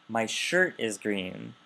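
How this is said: The stress falls on the word shirt. It answers which item is green. "Your what is green?"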